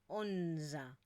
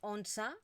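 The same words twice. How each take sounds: First: The middle consonant is a voiced z sound. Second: The middle consonant is a voiceless s sound. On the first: The speaker calls it right. "un sonido sonoro que correspondería a esta Z" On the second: The speaker calls it wrong. "no decimos"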